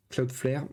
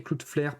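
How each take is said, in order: First: Cloudflare with an attempted English "ow" in Cloud, French accent; tentative d'accent anglais. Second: Said in the usual way. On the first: Real, not acted. (Cloudflare prononcé à l'anglaise, avec l'accent français) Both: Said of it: "désolé pour mon accent anglais".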